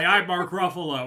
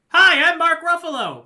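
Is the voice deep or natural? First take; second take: deep; natural. First: It is said in a forced deep voice. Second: It is said in a natural voice.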